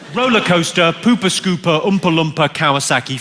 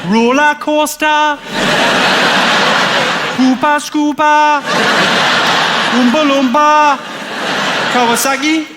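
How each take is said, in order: First: It is said in the speaker's ordinary accent. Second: It is said in a Geordie accent.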